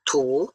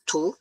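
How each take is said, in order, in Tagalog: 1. Bahagyang bumababa ang pitch, saka tumataas. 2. Mabilis at diretso ang pagtaas ng pitch. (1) "baba ka muna konti tas pataas" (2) "yung mabilis siya pataas"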